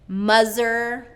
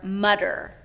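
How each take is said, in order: First: The middle consonant is a z sound. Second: The middle consonant is a d sound. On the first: "substituting a Z" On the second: "or D"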